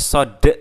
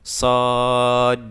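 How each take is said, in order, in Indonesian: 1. Konsonan terakhir diakhiri dengan vokal 'e' tambahan. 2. Konsonan terakhir memantul tanpa vokal tambahan. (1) "Nggak boleh kita baca sod" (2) "tapi kita baca sod"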